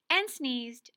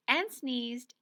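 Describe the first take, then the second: No difference in how they are said.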